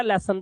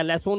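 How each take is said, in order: First: लेसन with a short uh, "less-un"; correct ending. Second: लेसन with a long o, "less-ohn"; wrong ending. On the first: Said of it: "लेसन पढ़ाया भाई". (लेसन के अंत में छोटा अ) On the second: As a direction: repeat the mistake in लेसन. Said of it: "लेसन नहीं पढ़ाया". (लेसन के अंत में लंबा ओ) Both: Shown as a demonstration.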